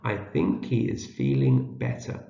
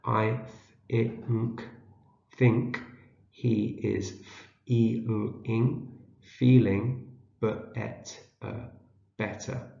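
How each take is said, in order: First: Said in the usual way. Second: Slow, halting word-by-word decoding; sounding out. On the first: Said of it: "Read it again". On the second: Shown as a demonstration. Teacher helps learners decode a short sentence, sounding out. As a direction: split each word into sounds, then say it whole. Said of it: "see if we can read it".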